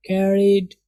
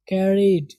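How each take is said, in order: Both takes have the same delivery.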